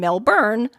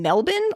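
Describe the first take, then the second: First: It is said the American way. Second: It is said the Australian way. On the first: "the more American Melbourne" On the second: "the more Australian Melbourne"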